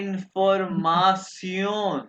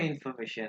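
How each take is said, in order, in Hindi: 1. अंत 'see-on' जैसा बोला जाता है। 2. अंत 'shun' जैसा बोला जाता है। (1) "इसको प्रोनाउंस करेंगे सियोन।" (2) "ये इंग्लिश में इंफॉर्मेशन है"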